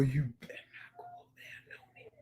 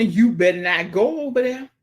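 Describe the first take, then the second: First: High-pitched breathy whisper; whispered playful warning. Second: Said in the usual way. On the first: Shown as a demonstration. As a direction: hiss the warning like a secret.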